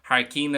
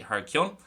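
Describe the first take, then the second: First: The last syllable sounds like 'keen', Connacht style. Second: The last syllable sounds like 'kyun', non-Connacht style. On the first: "In Connacht, it's going to be more so pronounced Harkeen" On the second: "it's absolutely fine. Just say Harkion"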